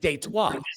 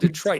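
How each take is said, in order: First: It is said with a French pronunciation. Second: It is said with an English pronunciation.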